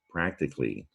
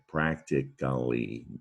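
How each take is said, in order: First: The word is said with three syllables. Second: The word is said with four syllables. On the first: This is the everyday way most people say it. "most people pronounce that word practically" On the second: This shows the root word with the ending added. "the root word is practical. So with an ly"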